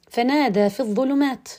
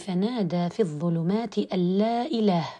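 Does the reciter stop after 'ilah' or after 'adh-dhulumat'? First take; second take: after adh-dhulumat; after ilah. First: The recitation stops right after the word adh-dhulumat. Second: The recitation stops right after the word ilah. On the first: It keeps the full declaration of God's oneness. The speaker calls it right. "يجب أن يقول فنادى في الظلمات" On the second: It denies that any god exists. The speaker calls it wrong. "وأقف"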